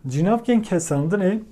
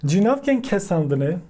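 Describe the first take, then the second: First: "cinavken kesandını" said slowly and clearly; slow, careful teaching repeat of "cinavken kesandını". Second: Said in the usual way. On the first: Shown as a demonstration. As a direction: spell out "cinavken kesandını" at dictation pace for learners. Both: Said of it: "term said then repeated".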